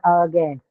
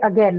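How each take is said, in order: First: The first vowel is long and full. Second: The first vowel is short and reduced. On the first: The speaker calls it wrong. "not again" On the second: The speaker calls it right. "But we say again ... So short one"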